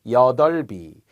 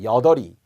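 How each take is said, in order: First: The b sound links into the following syllable. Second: The b sound is dropped before the following syllable. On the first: The speaker calls it right. "받침이 따라 올라간" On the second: The speaker calls it wrong. "이렇게 하면 안 되겠고요"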